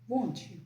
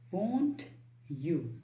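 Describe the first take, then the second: First: The T and Y blend into a CH sound. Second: The T and Y sounds are kept separate. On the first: "you can say won't you. The T plus Y sound becomes C H" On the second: "Instead of saying won't you"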